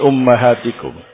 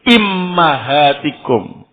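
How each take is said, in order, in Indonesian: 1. Kata ini diawali u, lalu a. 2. Kata ini diawali i, lalu a. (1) "bi dhammil alif wa fathil mim" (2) "Alif atau hamzahnya di kasrah, mimnya di fathah"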